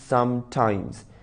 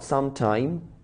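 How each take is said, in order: First: The word ends with a final s sound. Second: The word ends without a final s sound. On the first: The speaker calls it right. "It is समटाइम्स" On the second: The speaker calls it wrong. "दे से समटाइम while it is not समटाइम"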